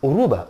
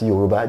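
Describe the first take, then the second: First: The word starts without a 'y' sound. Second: The word starts with a 'y' sound. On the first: This is how it is said in Cuba. "they speak Yoruba with a Spanish accent. So it's Uruba" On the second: This is how it is said in Nigeria. "that's Yoruba"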